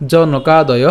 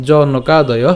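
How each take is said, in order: Both takes have the same delivery.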